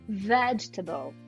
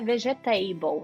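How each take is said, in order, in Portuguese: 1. Termina com um final reduzido, pouco claro. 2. Termina com o som completo de 'table'. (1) "Então a gente vai falar vegetable" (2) "não é vegetable, não tem table"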